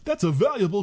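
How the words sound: It is said in a put-on accent.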